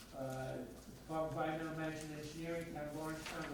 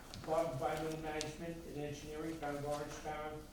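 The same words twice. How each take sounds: The two takes are said the same way.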